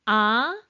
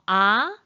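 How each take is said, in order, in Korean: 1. 음이 중간에서 높게 올라가요. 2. 음이 중간에서 높게 올라가요.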